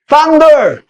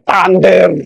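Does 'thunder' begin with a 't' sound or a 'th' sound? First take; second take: th; t. First: The word begins with a soft th sound. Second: The word begins with a hard t sound. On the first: The answer comes from a friend. The speaker calls it right. "So alam nila, kakampi yun" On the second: The answer comes from an enemy. The speaker calls it wrong. "So alam ka agad, no? German yun"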